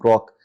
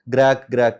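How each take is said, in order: First: The vowel is a rounded 'o' sound. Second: The vowel is an 'ai' sound. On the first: The speaker calls it right. "How he was pronouncing ग्रॉक" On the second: The speaker calls it wrong. "ग्रैक ग्रैक करके ... वो pronounce कर रहे थे"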